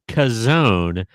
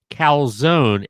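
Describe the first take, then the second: First: The L sound is dropped entirely. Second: The L sound is clearly pronounced.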